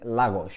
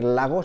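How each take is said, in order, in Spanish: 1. Se dice con pronunciación portuguesa. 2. Se dice con pronunciación española. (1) "creo que los portugueses, ... dicen Lagos" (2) "en vez de decir Lagos"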